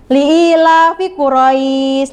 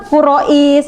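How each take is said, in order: First: Li'ilafi Quraisy, the ai in Quraisy glided softly and drawn long; slow, gentle tajwid reading of Li'ilafi Quraisy; soft recitation. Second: Quraisy said stiffly with a hard, short ai; a clipped, rigid Quraisy; stiff reading. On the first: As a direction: ease the ai of Quraisy smoothly, no hard stop. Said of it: "Dibacanya lembut". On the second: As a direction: show the wrong stiff way of saying Quraisy. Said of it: "Kalau kaku". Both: Shown as a demonstration.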